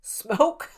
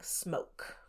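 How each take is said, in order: First: Higher, louder questioning quote; imitating someone tickled by the word; amused disbelief. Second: Soft, nearly voiceless quote; hushed word from a ghost recording; imitated ghost voice. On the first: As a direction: repeat it as a funny, surprised question. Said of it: "thought it was funny". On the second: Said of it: "they get a voice very clearly saying".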